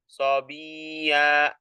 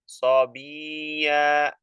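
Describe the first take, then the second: The two takes are said the same way.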